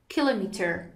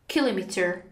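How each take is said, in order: Both takes have the same delivery.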